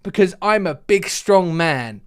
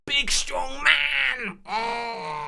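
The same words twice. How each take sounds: First: Said in the usual way. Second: Very high, drawn-out squealed strong-man roar; mock strongman. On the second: Caller showing off as a big man, high hammed-up strongman cry. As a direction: stretch it into a strained, high-pitched mock yell. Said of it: "I thought everyone required a visualization".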